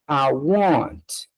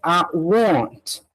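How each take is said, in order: First: It is said as a short contracted form. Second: It is said as a short contracted form.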